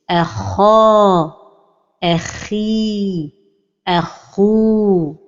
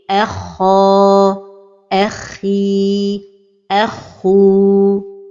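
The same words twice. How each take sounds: First: The doubled kh sound is pressed hard. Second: The doubled kh sound is said lightly. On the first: The speaker calls it wrong. "d'appuyer sur la lettre comme ceci" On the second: The speaker calls it right. "la prononciation correcte"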